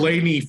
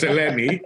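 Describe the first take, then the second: First: "Eleni" said the English-speaker's way; Anglicised pronunciation. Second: "Eleni" said the Greek way; Greek pronunciation. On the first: Host owning up to his first try at the guest's name, Anglicised pronunciation. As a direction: say "Eleni" as a complete Anglo would. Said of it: "trying to be a Cana-, a, a complete Anglo". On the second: Host correcting himself on the Greek guest's name, Greek pronunciation. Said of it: "but it's Eleni". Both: Shown as a demonstration.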